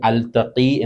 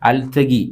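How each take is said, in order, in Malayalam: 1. നടുവിലെ വ്യഞ്ജനം kh ശബ്ദമാണ്. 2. നടുവിലെ വ്യഞ്ജനം g ശബ്ദമാണ്.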